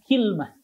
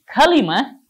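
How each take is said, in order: First: The word has two syllables, kil-mah. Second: The word has three syllables, ka-li-mah. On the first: This is the form used by the Banu Tamim. "Kalau kilmah Banu Tamim" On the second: This is the form used by the people of Hijaz. "Kalimatun ini merupakan bahasa ahlul Hijaz"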